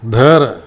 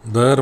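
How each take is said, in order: First: The first consonant is breathy and aspirated. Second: The first consonant is plain, without aspiration. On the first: This is the standard form of the word. The speaker calls it right. "धर शब्दाला" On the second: This is a corrupted dialect form. The speaker calls it wrong. "Corrupt form"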